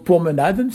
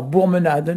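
First: "promenaden", said pour-me-na-den with initial P; unmutated form. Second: "bourmenaden", with P softened to B; mutation after article. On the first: Teacher gives the base noun, "promenaden" with P. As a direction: say "promenaden" as pourmenadenn, starting on P. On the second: Teacher shows the mutated noun, "bourmenaden" with B. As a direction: say "bourmenaden" starting on a voiced B. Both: Shown as a demonstration. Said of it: "il y a une mutation après l'article".

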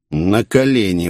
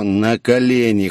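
First: A touch of a growl, commanding; growled order. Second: Slow, cold order; icy, controlled, slow command. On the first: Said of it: "прорычал я". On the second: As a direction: repeat it coldly, drawing it out. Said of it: "холодно повторил я". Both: A narrator's reading.

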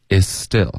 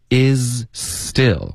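First: "is still" linked as "i-still", z dropped; "is still" with one s sound joining the words; silent z. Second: Said in the usual way. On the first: Shown as a demonstration. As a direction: let the z of "is" vanish into "still". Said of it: "就听不见了". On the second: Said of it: "z的音就会".

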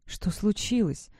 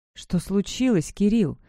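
First: Hoarse and slow; a hoarse, weak question, slowly. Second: More insistent. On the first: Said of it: "спросила я охрипшим голосом". (хрипло и медленно) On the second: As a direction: insist on an answer. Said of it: "настойчивее повторила я". (настойчиво, с нажимом на имя) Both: A narrator's reading.

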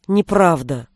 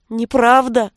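First: Lower, gentle denial; soft denial. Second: Mild tearful stubborn denial; hurt girl insists, lightly tearful; stubborn sob. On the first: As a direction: quietly reassure her. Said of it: "Милош вздрогнул". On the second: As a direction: deny it through a mild sob. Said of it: "упрямо всхлипнула она". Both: A narrator's reading.

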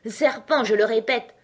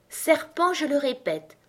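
First: Loud, raised, insistent accusation; insistent pigeon. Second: High but less forceful accusation; slightly calmer insistence. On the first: Pigeon repeating the accusation to Alice, loud and insistent. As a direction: insist firmly, louder. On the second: Pigeon repeating itself to Alice, a little calmer. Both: A narrator's reading. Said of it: "continua le pigeon d'une voix plus calme".

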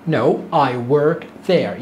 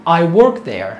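First: No, I work there dragged out slowly; slow demo. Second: Said in the usual way. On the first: Shown as a demonstration. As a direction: model the answer word by word. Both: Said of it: "تعال نسمع".

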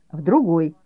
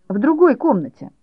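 First: Said in the usual way. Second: High, louder stress on другой; boy sending his mother off to knit elsewhere, high and bossy; bossy permission. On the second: A narrator's reading. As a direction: grant it grandly, hitting другой.

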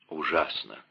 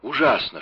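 First: Тихо и подавленно; выдохни слово почти шёпотом. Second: Громче, с надрывом; повтори «Ужасно!» с отчаянием; с горечью. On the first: (тихо, подавленно «Ужасно!») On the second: (с надрывом, громче «Ужасно!») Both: Acted. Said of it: "шептал Атос".

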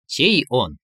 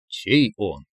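First: Mildly curious question; interested. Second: Echoed interest. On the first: Inner voice prompting a suitor, with interest. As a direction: ask with a lift of interest. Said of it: "заинтересованно произнёс голос". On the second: Man repeating his prompter's words, same interested intonation. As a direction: lower copy of a curious question. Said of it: "Валентин даже интонации сохранил". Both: A narrator's reading.

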